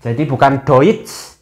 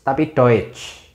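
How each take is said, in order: First: Deutsch said doitch, slowly; the wrong oi in Deutsch; slow contrast of the wrong vowel; wrong take. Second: Deutsch said slowly with the corrected vowel; the right eu in Deutsch; right take. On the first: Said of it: "O I bukan dibaca O I". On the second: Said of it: "tapi O E". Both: Shown as a demonstration.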